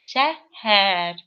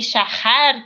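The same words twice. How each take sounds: First: The middle h is a soft, airy breath. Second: The middle h is a harsh, scraping sound. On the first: The speaker calls it right. "а вот шәһәр, как будто вот улетаешь немножечко. Так нежненько" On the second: The speaker calls it wrong. "не шәһәр"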